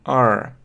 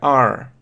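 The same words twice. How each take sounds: First: The vowel ends with an audible r sound. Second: The vowel ends with an audible r sound.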